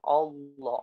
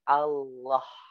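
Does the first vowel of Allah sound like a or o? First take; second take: o; a. First: The first vowel sounds like o. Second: The first vowel sounds like a. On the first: The speaker calls it wrong. "Jangan Allah. O. Bukan O" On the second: The speaker calls it right. "Tapi A"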